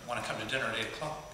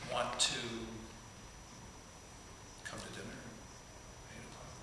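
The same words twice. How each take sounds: First: It flows as one phrase without breaks. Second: It is broken by pauses into three phrases. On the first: The speaker is sure of themselves. "you can say that as a whole sentence" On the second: The speaker is unsure of themselves. "you phrased it into three separate thought processes"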